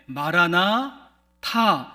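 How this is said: The break comes after 'marana'. A plea for the Lord to come. "마라나 타 이렇게 끊어서 인사를 하게 되어지면 주여 오시옵소서"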